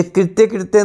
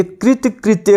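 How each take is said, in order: First: कृत्य कृत्य with both halves ending "-tye"; mispronounced कृत्य कृत्य. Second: कृत कृत्य with the first half ending in bare "t"; correct कृत कृत्य. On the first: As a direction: say कृत्य कृत्य as kritye-kritye. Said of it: "कृत्य कृत्य नहीं होता". (कृत्य कृत्य में दोनों बार 'त्य' बोलें) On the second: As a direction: say कृत कृत्य as krit-kritye. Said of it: "कृत कृत्य होता है". (कृत कृत्य में पहला शब्द 'कृत' बोलें) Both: Shown as a demonstration.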